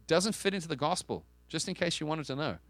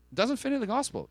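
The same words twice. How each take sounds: First: Said in the usual way. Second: "It doesn't fit into the gospel" pitched much higher, driven home; preacher's insistent higher repeat; emphatic restatement. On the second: Real, not acted. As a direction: repeat it higher to hammer the point. Emphatic repeat of sermon point.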